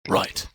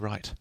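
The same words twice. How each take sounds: First: It is said in a put-on character voice. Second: It is said in the speaker's ordinary voice.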